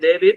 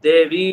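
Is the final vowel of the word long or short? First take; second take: short; long. First: The final vowel is said short. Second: The final vowel is said long. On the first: The speaker calls it wrong. "ಅಲ್ಲಿ ದೇವಿ ಅಂತ ಹ್ರಸ್ವ ಇದೆ" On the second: The speaker calls it right. "ದೇವಿ ಅಂತ ದೀರ್ಘ ಮಾಡ್ಕೊಡಿ"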